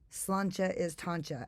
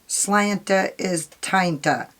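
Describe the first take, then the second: First: The words are said with a ch sound. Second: The words are said with a plain t sound. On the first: The speaker calls it right. "I actually Googled. It's slancha is tancha" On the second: The speaker calls it wrong. "maybe that's a little bit better"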